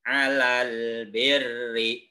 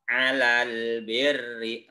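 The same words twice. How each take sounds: Both takes have the same delivery.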